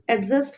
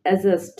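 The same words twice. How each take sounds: First: অ্যাডজাস্ট with an audible D before the J; D wrongly sounded. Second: অ্যাডজাস্ট with no D before the J; silent D. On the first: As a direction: say অ্যাডজাস্ট as "ad-just". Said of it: "আমরা কিন্তু অ্যাডজাস্ট বলি না". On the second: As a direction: say অ্যাডজাস্ট as "a-just". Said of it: "ডির উচ্চারণ হবে না". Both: Shown as a demonstration.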